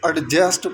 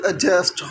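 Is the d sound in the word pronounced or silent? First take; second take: pronounced; silent. First: The d sound is clearly pronounced. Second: The d sound is silent. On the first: The speaker calls it wrong. "जो कि totally wrong होता है" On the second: The speaker calls it right. "यहाँ पर भी जो डी है वो साइलेंट होता है"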